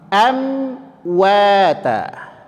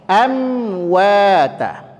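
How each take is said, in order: The two takes are said the same way.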